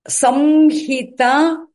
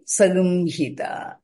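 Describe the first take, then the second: First: The nasal is a plain m sound. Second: The nasal is said as a gum sound. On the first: "it actually anuswaraha" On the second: "but pronounced as gum"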